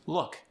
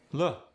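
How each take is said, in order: First: Said in the usual way. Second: "Look" with final K dropped, loo'; Cajun soft K. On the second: Shown as a demonstration. Coach showing Cajun softened final K. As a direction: leave the K off "Look". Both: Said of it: "softened at the end of words".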